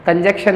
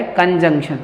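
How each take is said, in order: First: कंजक्शन as "kanjekshan"; wrong pronunciation. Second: कंजंक्शन as "kanjungshan"; correct pronunciation. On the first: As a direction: show कंजक्शन missing its middle nasal. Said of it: "कंजक्शन नहीं है". (कंजक्शन, न छोड़कर) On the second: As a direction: put the nasal into कंजंक्शन. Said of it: "ये क्या है?". (कंजंक्शन में न बोलकर) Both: Shown as a demonstration.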